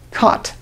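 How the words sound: The vowel is open and unrounded, like cot. "in California, many speakers use this pronunciation cot for both of these words"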